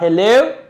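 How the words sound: The greeting sounds puzzled and questioning. The speaker does not know who is calling. "This hello means you don't know who the person is"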